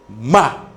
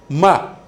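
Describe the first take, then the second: The two takes are said the same way.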